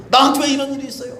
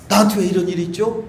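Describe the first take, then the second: First: High, fast plea; retold pleading to God; pleading complaint. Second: Said in the usual way. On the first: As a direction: cry out why me.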